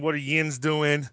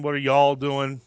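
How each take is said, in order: First: Slow Pittsburghese yins, a light demo; Pittsburgh accent. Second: Said in the usual way. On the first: Shown as a demonstration. Explaining local slang to listeners in Pittsburgh accent. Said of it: "because that's the Pittsburgh accent". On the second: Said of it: "similar to what are you all doing".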